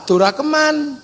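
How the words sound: The name is said the Javanese way, Durakeman.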